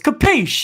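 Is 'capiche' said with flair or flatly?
with flair. The word is said with showy, stylish flair. The speaker calls it right. "you got to do it with style"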